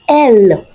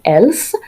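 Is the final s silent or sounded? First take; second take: silent; sounded. First: The final s is silent. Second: The final s is pronounced. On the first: The speaker calls it right. "we're going to say L one more time because the S here is a consonant" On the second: The speaker calls it wrong. "we're not going to say else"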